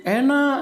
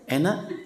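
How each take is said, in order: First: "Enak" pitched high as an answer; tactful praise. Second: Short question with a rising end on "Enak?". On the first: Husband reassures wife about her cooking, tactful praise. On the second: Wife asks husband about her cooking, questioning. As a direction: ask "Enak?" lightly, lifting the end. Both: Acted.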